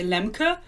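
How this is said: The name is said with a German pronunciation. This is how a German would say the name. "if you were German, you would say Lemke"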